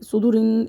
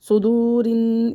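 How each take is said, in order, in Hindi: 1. यह शब्द जल्दी से बोला गया है। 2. यह शब्द धीरे-धीरे खींचकर बोला गया है। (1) "इस तरह जल्दी पढ़ देते हैं" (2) "इस तरह खींचना है"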